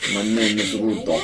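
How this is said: It is said in a jokey Russian accent. The speaker calls it right. "I was more confident doing a, a jokey Russian accent"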